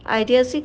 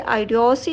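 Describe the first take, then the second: First: The middle vowel is a reduced 'uh' sound. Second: The middle vowel is a full 'oh' sound. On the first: The speaker calls it right. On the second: The speaker calls it wrong.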